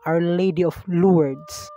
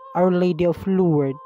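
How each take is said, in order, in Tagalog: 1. May tunog na S ang dulo ng Lourdes. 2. Walang tunog na S sa dulo ng Lourdes. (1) "Meron din namang iba na pinopronounce ito ng" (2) "Walang E S at parang wala ring S"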